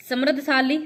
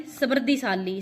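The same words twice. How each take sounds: First: समृद्धशाली with no i before शा; wrong form. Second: समृद्धिशाली with i before शा; correct form. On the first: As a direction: join द्ध straight to शाली in समृद्धशाली. (गलत उच्चारण, समृद्धशाली) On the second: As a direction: say -dhi-shaali in समृद्धिशाली. (सही उच्चारण, समृद्धिशाली) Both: Shown as a demonstration. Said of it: "समृद्धिशाली शुद्ध शब्द है".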